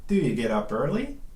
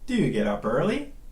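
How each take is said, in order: First: "Do you" is reduced to "do ya". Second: The same.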